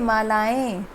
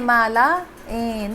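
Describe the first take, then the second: First: The ending is joined without any break. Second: The ending is split off after a break. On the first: The speaker calls it right. "आपको बोलना कैसे" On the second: The speaker calls it wrong. "ऐसे नहीं बोलना है माला ए ... मैं आपको समझाने के लिए अलग अलग बोल रही हूँ"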